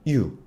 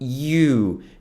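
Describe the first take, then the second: First: It is a short, plain Korean-style 'yu'. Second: It is said closer to the native English sound. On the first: The speaker calls it wrong. "한국에서는 you, 그냥 you" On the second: The speaker calls it right. "you 발음은 you, you 정도로 하고요"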